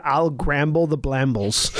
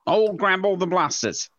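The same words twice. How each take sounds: First: "I'll gramble the blambles" with slurred m-b clusters; mishearing. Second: Words slurred by numb tongue. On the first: Retold or imitated. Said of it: "but I heard". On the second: Real, not acted. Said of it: "so my tongue is numb".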